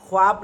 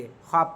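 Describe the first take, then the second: First: ख्वाब with the w sounded, khwaab; spelling-pronunciation khwaab for ख्वाब; wrong, sounded w. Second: ख्वाब said as khaab; correct, silent w. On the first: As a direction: pronounce the silent vao in ख्वाब as w. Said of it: "ख्वाब नहीं कहेंगे". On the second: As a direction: drop the w in ख्वाब. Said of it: "ख्वाब कहेंगे". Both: Shown as a demonstration.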